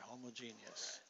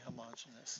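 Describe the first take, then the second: First: The word is said in the physicists' pronunciation. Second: The word is said in the Midwestern pronunciation. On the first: The speaker calls it right. "But physicists, which we are now, all of us, say homogeneous" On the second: The speaker calls it wrong. "everyone coming from the Midwest likes to say homogeneous"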